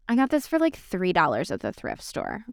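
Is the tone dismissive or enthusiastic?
dismissive. It sounds dismissive and downplaying.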